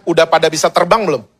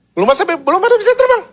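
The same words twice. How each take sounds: First: Said in the usual way. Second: Very high, rushed protest; mock alarm. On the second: Preacher acting out chicks falling before they can fly, mock alarm. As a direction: blurt it out fast in a high pitch.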